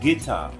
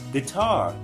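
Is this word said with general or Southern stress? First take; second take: Southern; general. First: The word has the Southern stress pattern. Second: The word has the general American stress pattern.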